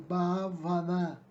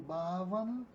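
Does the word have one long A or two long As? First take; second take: two; one. First: The first two As are both long. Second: The first A is long and stressed. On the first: It is the feminine noun. "com os dois As longos" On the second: It is the adjective. "com aceito tônico no primeiro A, o A longo"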